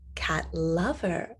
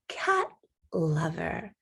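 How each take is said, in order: First: The second word is stressed. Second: The first word is stressed with a pitch rise. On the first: A lover who is a cat. "stress the word lover" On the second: A person who loves cats. "we're stressing the word cat and our tone of voice goes up"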